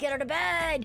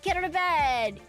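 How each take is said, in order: First: It is said in a harsh, angry tone. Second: It is said in a sweet, encouraging tone. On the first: The speaker is being mean to themself. The speaker calls it wrong. "you stupid piece of shit" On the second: The speaker is being kind to themself. The speaker calls it right. "It feels so like condescending"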